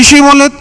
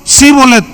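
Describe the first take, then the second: First: The word begins with an 'sh' sound. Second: The word begins with an 's' sound. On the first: The speaker calls it right. "ahora pues di, Shibolet" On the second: The speaker calls it wrong. "porque no podía pronunciarlo correctamente"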